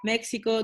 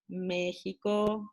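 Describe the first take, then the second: First: It is said with English pronunciation. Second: It is said with Spanish pronunciation. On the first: The speaker calls it wrong. "you said like" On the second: The speaker calls it right.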